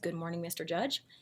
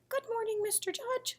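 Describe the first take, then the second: First: It is said in a normal voice. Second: It is said in a disguised voice.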